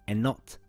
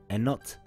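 Both takes have the same delivery.

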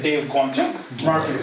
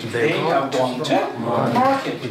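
First: They have is shortened into one syllable. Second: They have is said as two full words. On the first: "or you can say Dev gone to market" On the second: "there is no need to say they have gone to market"

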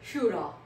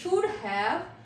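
First: 'Have' is reduced to a short 'a'. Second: 'Have' is said in full. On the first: "हम लोग कैसे pronounce करेंगे" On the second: "instead of this should हैव"

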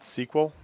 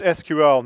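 First: It is spoken as one word, sequel. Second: It is spoken as three separate letters. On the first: The speaker calls it wrong. "not SQL" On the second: The speaker calls it right. "you say the letters, you don't pronounce the word. So it's SQL"

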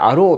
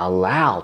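First: The stressed vowel sounds like oh. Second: The stressed vowel sounds like ow. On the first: The speaker calls it wrong. "生徒さんは大体allow って読んじゃうんですよ。follow がO だから" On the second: The speaker calls it right. "実はallow って発音なんですね。eyebrows と一緒なんですよ。"

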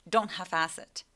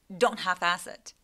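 No difference in how they are said.

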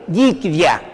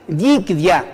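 No difference in how they are said.

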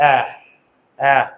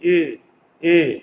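First: The vowel is open, said with the jaw dropped. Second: The vowel is closed, said without dropping the jaw. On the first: "এ হয়ে যায়। এই যে এ এ মুখের চোয়াল খুলে" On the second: "মুখের চোয়াল খুলে না, স্বাভাবিক।"

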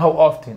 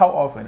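First: The t in often is clearly pronounced. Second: The t in often is silent. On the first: "يقولون هاو اوفتن" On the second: "بس هي يعني صح هاو اوفن عادي"

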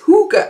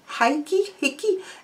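First: The word starts with a 'hoo' sound. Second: The word starts with a 'hig' sound. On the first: The speaker calls it right. "It's Hooger, apparently" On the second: The speaker calls it wrong. "I always thought it was Higgy"

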